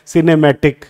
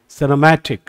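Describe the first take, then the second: First: The syllables are given equal stress throughout. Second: The second-last syllable is louder, longer and higher. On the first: The speaker calls it wrong. "ऐसा नहीं होता, ... तो हम तो बराबर का stress दे रहे हैं" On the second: The speaker calls it right. "तो म पे मैंने जोर दिया"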